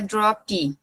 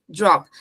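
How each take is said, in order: First: An extra vowel sound follows the final p. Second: The word stops sharply on the final p. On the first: The speaker calls it wrong. "não é drop" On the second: The speaker calls it right. "é sempre drop"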